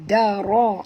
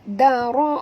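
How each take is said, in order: First: The d sound is very harsh and heavy. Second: The d sound is a light tongue-tip tap. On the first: The speaker calls it wrong. "jangan baca dara. Ya, da tu kasar sangat bunyinya" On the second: The speaker calls it right. "Dia kena baca sentil lidah"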